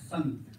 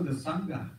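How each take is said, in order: First: The word ends on a consonant sound. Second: The word ends with an added 'a' vowel. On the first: The speaker calls it right. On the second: The speaker calls it wrong.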